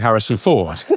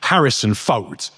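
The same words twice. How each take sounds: First: The name ends without an s sound. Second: The name ends with an added s sound. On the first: The speaker calls it right. "You say Harrison Ford" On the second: The speaker calls it wrong. "Doesn't sound right"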